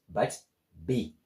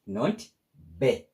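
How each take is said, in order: First: The vowel is a long ee sound. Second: The vowel is a short e sound. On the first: The speaker calls it right. "but B, because of double E" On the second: The speaker calls it wrong.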